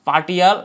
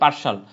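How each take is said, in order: First: The middle consonant is a t sound. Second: The middle consonant is an sh sound. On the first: The speaker calls it wrong. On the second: The speaker calls it right.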